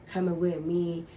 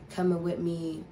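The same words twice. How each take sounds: The two takes are said the same way.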